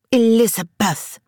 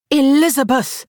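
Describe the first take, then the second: First: Scolding. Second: Higher and louder rebuke; sharp scolding. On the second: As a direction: bark her name in reproach. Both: A narrator's reading. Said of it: "Harriet scolded".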